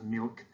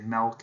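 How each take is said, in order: First: The vowel sounds like the i in bit. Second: The vowel sounds like the e in bet. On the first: This is the usual pronunciation. "instead of" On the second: This is the speaker's own habitual pronunciation. "I pronounce my I's like E's"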